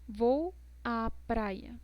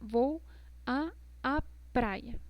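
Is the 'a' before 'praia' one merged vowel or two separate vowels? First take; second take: one merged; two separate. First: The two a sounds merge into one vowel. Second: The two a sounds are said separately. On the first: The speaker calls it right. "Este es el ejemplo correcto" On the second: The speaker calls it wrong. "la forma equivocada de decir esto"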